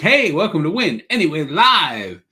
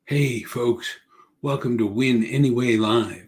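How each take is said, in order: First: It is said loudly and energetically. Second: It is said quietly and calmly.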